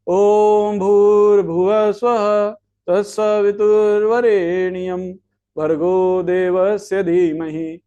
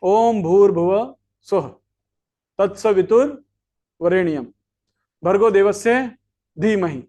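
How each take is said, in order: First: It is recited in one run without pauses. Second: It is recited with pauses between its parts. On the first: The mantra becomes fruitless. The speaker calls it wrong. "इसी मंत्र को अगर आपने निष्फल करना है" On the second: The mantra is recited properly and bears fruit. The speaker calls it right. "तीन जगह पे मंत्र को रोका"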